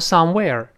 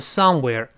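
First: The stress is on the second syllable. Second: The stress is on the first syllable. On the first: The speaker calls it wrong. "不要读somewhere" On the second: The speaker calls it right. "重音在前面，读成somewhere"

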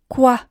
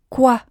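The two takes are said the same way.

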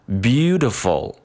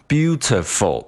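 First: The first syllable is long, the rest quick. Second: All three syllables are equally long and choppy. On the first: The speaker calls it right. "那读出来就应该感觉是beautiful beautiful" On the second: The speaker calls it wrong. "你不能读成beautiful，那这样的话就变成我们的中式口音了，就非常的choppy"

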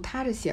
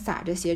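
First: The first syllable is pronounced ta. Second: The first syllable is pronounced sa. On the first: The speaker calls it right. "以后读到这个字呢都读踏着鞋了" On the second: The speaker calls it wrong. "我前面都读成撒着鞋"

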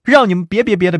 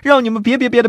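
First: It is said at a slower pace. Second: It is said at a fast pace.

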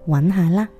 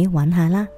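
The two takes are said the same way.

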